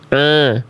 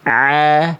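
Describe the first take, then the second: First: It is a light catch pushed through the nose. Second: It is strained from the middle of the throat. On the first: The speaker calls it wrong. "dia itu melafalkan hamzah sebenarnya. Tapi biar bunyinya mirip-mirip ain, dia kasih masuk hidung" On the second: The speaker calls it right. "Kalau ain lebih kayak a, ai, au, dirasain di tengah tenggorokan"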